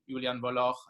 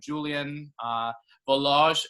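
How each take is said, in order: First: The name is said with a German pronunciation. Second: The name is said with an English pronunciation. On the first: "in German" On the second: "as they say in English"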